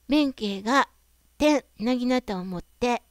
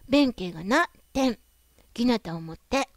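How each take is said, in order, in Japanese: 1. 区切りは「ga」のすぐ後にある。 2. 区切りは「na」のすぐ後にある。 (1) "弁慶が点、" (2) "弁慶がな、点、"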